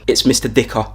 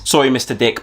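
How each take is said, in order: First: "Dicker" said in full, stress on "Mister"; correct name. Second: Dicker said as "Dick", cut short; wrong name. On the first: Teacher correcting the pupil, full "Mister Dicker". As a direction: spell out "Mister Dicker" firmly. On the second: Pupil to the teacher, name chopped short. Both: Acted.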